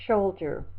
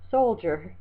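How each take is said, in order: First: Soldier slipped into "sholdier", with sh for s; slip of the tongue. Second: Said in the usual way. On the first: Real, not acted. Teacher misreading a word from the list, soldier said with sh. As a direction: stumble on the first sound of soldier, saying "shoulder-jer" style sh. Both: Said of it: "excuse me".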